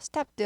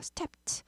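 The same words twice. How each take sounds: First: The ending is a voiced d sound. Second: The ending is a voiceless t sound. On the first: The speaker calls it wrong. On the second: The speaker calls it right.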